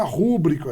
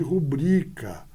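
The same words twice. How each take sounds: First: "rúbrica" stressed on the first syllable; "rúbrica" with a punched RÚ; misplaced stress. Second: "rubrica" stressed on BRI; "rubrica" with a long middle syllable; correct stress. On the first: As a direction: say RÚ-brica, the common slip. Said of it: "quando você pronuncia de maneira errada". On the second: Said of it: "ao invés de". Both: Shown as a demonstration.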